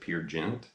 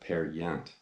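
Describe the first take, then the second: First: The name is said with an anglicized vowel. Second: The name is said with a Norwegian vowel. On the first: The speaker calls it wrong. "I used to pronounce it Peer Gynt" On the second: The speaker calls it right. "you don't pronounce it the way it looks. You pronounce it Per Gynt"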